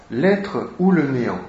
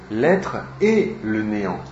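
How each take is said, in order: First: Said in the usual way. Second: "et" set out as the key word; stress on et. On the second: Shown as a demonstration. Lecturer corrects the book title, stressing "et". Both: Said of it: "Non pas ou, mais et".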